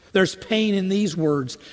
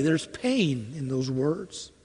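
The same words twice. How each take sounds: First: Said in the usual way. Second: Slow, softer, sorrowing aside; hushed and pained. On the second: Shown as a demonstration. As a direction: let the words sink, quietly.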